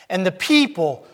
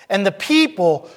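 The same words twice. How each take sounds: The two takes are said the same way.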